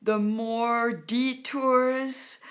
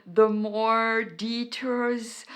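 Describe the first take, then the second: No difference in how they are said.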